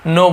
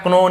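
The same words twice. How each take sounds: First: Know said just like no, k silent. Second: Know said wrongly as k-no, with the k sounded. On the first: Teacher showing students the right way, know as plain no. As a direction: say know exactly as no, dropping the k. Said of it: "no" बोलना है". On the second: Teacher showing students the wrong way, know with a sounded k. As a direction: pronounce know with a hard k, the wrong way. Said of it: "नहीं बोलना है आपको". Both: Shown as a demonstration.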